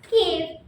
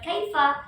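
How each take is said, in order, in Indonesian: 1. Diucapkan dalam dialek percakapan yang disingkat. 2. Diucapkan dalam bahasa Arab standar formal. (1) "ada yang mengucapkan kif" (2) "Kalau fusha pasti mengucapkan kaifa"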